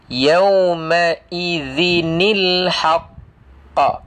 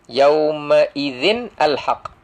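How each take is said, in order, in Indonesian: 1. Huruf n disambung ke kata berikutnya dengan bunyi i. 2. Huruf n dan kata berikutnya diucapkan terpisah.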